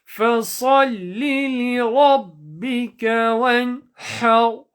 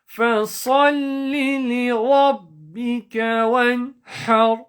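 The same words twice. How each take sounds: No difference in how they are said.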